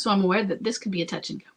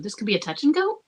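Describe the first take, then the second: First: Said in the usual way. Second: "This could be a touch and go." with the tune rising on "go"; read as a question. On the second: Shown as a demonstration. Reading the listener's line back, rising on "go" as a question. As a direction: let "go" lift upward like a question. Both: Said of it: "she says that as a question".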